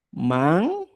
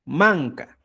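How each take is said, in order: First: MANCA split into "man" and "ca"; syllable by syllable. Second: Said in the usual way. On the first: Shown as a demonstration. Teacher writing out the word, syllable by syllable. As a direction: say MANCA in two separated syllables, first one drawn out. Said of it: "Pongo aquí". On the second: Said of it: "Olla se dice".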